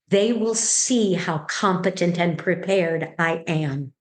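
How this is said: It sounds calm, on a slow exhale.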